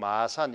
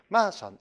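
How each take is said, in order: First: The first syllable is not stressed. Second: The stress falls on the first syllable. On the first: This is the usual standard pronunciation. "우리는 보통 마산 이렇게 하는데" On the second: This is the local dialect pronunciation. "액센트를 이제 앞에다 두고"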